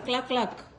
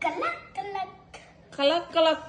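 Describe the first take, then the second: First: The first two consonants are said together. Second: A vowel is inserted between the first consonants. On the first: The speaker calls it right. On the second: The speaker calls it wrong.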